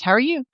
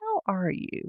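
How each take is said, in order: First: It is asked lightly and casually. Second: It is asked slowly with deep concern.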